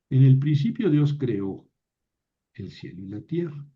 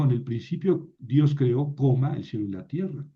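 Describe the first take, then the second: First: "En el principio Dios creó" read straight into "el cielo y la tierra" with only a short pause, no comma spoken. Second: "En el principio Dios creó" then the word "coma" said aloud before "el cielo y la tierra"; comma read aloud. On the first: Teacher showing students the right reading, without a comma. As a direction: read it through as one clause, the right way. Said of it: "en hebreo ahí está el atna". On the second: Teacher showing students the wrong reading, with a spoken comma. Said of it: "Yo no digo". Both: Shown as a demonstration.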